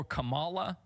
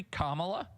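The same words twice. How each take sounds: First: Kamala stressed on the middle syllable; second-syllable stress. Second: Kamala stressed on the first syllable. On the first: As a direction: say Kamala as kuh-MAH-la. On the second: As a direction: say Kamala with the weight on KA. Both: Shown as a demonstration. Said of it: "how her name is supposed to be pronounced".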